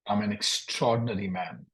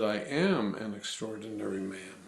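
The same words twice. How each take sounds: First: I'm an extraordinary man said with the contraction I'm; student slips into I'm instead of I am; contracted I'm. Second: I am said as two full separate words; uncontracted I am. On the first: Real, not acted. Student repeats the coach's line, contracting I'm. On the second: Shown as a demonstration. Coach corrects the student, full I am, softly. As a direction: give I and am each their full weight. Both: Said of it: "I didn't use the contraction".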